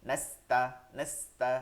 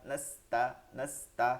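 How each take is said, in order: The two takes are said the same way.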